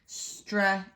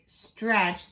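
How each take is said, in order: First: "stra-e-ch-es" broken into four slow bits; over-split it as "stra", "e", "ch", "es"; "stra-e-ch-es" with a gap after every sound; wrong syllable split. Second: Said in the usual way. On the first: Shown as a demonstration. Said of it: "I can't go stra-e-ch-es". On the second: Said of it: "There's one vowel for this whole section".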